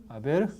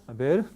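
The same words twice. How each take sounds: No difference in how they are said.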